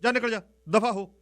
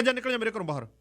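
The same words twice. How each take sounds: First: Higher and louder, get out; angry uncle shouting the niece out. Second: Raised pitch, ordering her out; angry uncle ordering the niece out. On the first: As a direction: bark her out of the house. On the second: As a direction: throw her out of the house. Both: Retold or imitated. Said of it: "ਮੈਂ ਕਿਹਾ".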